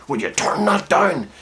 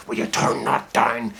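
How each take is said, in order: First: Held-in anger, higher and slower; a father's anger pressed down; subdued anger. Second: A mild hint of a father barely containing rage; subdued anger. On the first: Retold or imitated. Dad to son at two in the morning, held-in anger. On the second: Dad warning his son about the music, mild subdued anger. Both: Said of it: "that subdued anger".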